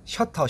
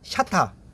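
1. 'sheo'로 발음하고, 'teo'는 부드럽게 발음해요. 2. 'sha'는 입을 크게 벌려 발음하고, 'ta'는 딱딱하게 발음해요.

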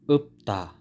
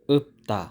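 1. Ang gitnang katinig ay tunog p. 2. Ang gitnang katinig ay tunog p.

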